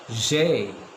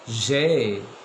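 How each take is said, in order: First: It is run together into one syllable. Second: It is run together into one syllable.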